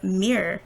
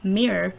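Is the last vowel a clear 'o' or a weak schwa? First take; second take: weak schwa; weak schwa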